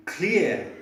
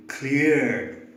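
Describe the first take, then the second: First: British clear ending on the vowel. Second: Cleared in an American accent, with the r sounded; American cleared with a firm r. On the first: Teacher showing British clear with a silent r. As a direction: clear in a British accent, no r sound. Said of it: "In British English it should be clear". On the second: Teacher showing American clear with a sounded r. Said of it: "In American English it should be cleared". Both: Shown as a demonstration.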